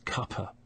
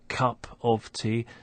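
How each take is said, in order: First: It is shortened to two syllables. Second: All three words are said in full. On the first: "it's cuppa" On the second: "instead of cup of tea"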